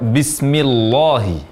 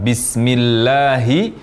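First: The lam sound is thick and heavy. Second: The lam sound is thin and light. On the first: The speaker calls it wrong. "terucap ... dengan tafkhim atau tebal" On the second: The speaker calls it right. "huruf lam yang seharusnya dibaca tarqiq atau tipis"

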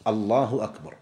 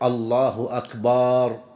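First: No vowel in the phrase is drawn out. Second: The vowel after the b is drawn out. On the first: It states that God is greatest. The speaker calls it right. "أن يكون بهذا اللفظ الله أكبر" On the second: The word becomes a plural meaning drums. The speaker calls it wrong. "أن لا يمد الباء في أكبر"

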